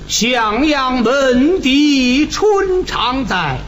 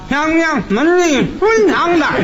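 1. 拖长了说，每个字都有很强的鼻腔共鸣。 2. 像堵住了一样说，没有鼻腔共鸣。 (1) "你看这个鼻腔共鸣就用上了。" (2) "那要没鼻子唱这什么味儿呢？"

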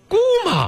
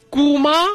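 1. 第二个音节很轻，读轻声。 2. 第二个音节读全声。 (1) "轻声" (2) "不是啊"

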